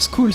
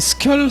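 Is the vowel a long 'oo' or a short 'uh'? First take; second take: long; short. First: The vowel is a long 'oo' sound. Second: The vowel is a short 'uh' sound. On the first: The speaker calls it wrong. "c'est pas School" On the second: The speaker calls it right. "C'est Skull"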